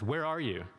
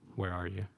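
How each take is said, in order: First: It is said in a harsh, accusing tone. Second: It is said in a gentle, calling tone.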